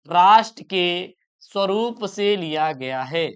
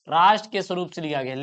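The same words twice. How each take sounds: First: Slow, word-by-word repeat, slightly lower; drawn-out, evenly spaced words; slow dictation. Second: Said in the usual way. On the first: Shown as a demonstration. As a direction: dictate it slowly for students to write. Teacher repeats answer slowly as dictation.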